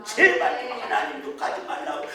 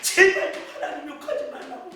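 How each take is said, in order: First: Hushed imitated plea of the mother; pleading whisper. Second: Rushed hushed plea rising at the end; faster pleading whisper. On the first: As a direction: whisper the plea urgently, as if begging a drunk to stop. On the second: Retold or imitated. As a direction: hurry the whispered begging, lifting the end. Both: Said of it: "막 그랬어요".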